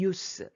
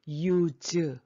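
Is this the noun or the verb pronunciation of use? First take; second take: noun; verb. First: It is said with the noun pronunciation. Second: It is said with the verb pronunciation. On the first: It names the thing: usefulness. "이것이 명사일 때 소용, 발음이 use" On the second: It names the action: to use. "쓸모가 있다 동사라면 use"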